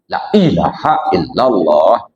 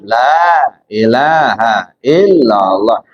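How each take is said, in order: First: The first vowel of 'la' is short. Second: The first vowel of 'la' is long. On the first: The speaker calls it wrong. "Itu nggak ada ilmu tajwidnya" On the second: The speaker calls it right. "La ini kan panjang nih lam alif"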